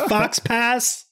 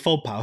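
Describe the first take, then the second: First: The word ends with a clear s sound. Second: The word ends without any s sound. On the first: The speaker calls it wrong. "is this the fox pass? It's not" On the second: The speaker calls it right. "It's the faux pas"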